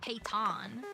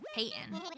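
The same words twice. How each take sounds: First: The T is pronounced fully and clearly. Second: The T is soft, going straight into N. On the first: The speaker calls it wrong. "definitely not" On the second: The speaker calls it right. "Soft T hit the N"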